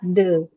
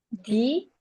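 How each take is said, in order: First: The vowel of the word is a short 'uh'. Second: The vowel of the word is a long 'ee'. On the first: The next word does not start with a vowel. "Kalau ini bukan a, i, u, e, o, awal kata ini, itu dibaca the" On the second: The next word starts with a vowel. "itu the-nya dibaca di"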